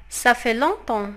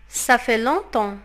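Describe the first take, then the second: No difference in how they are said.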